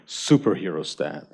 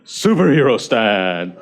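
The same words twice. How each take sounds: First: Half-laughing pose cue; laughing call-out. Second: Slow, emphatic pose cue; slow power call-out. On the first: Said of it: "so I'm gonna do the dance". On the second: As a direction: announce the pose with weight. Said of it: "So ready?". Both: Shown as a demonstration.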